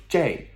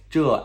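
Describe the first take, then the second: First: "这" as zhei, like jay; slow "这", rhyming with day; colloquial pronunciation. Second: "这" as zhe, with an uh vowel; slow "这", rhyming with duh; standard pronunciation. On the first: Teacher recalling the earlier two forms, colloquial one. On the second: Teacher recalling the earlier two forms, standard one. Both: Shown as a demonstration. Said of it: "Again, like".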